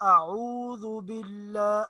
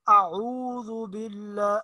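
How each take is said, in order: No difference in how they are said.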